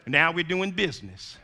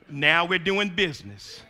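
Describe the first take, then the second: No difference in how they are said.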